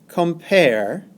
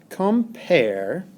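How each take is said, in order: No difference in how they are said.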